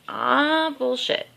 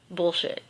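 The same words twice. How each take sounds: First: A hint of dad's dismissive "bullshit", pitched up; lightly voiced dad brushing it off; imitating dad. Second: Said in the usual way. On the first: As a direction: toss off "Ah, bullshit." like dad did. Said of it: "That's what he would say". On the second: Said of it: "that was my dad's favorite line".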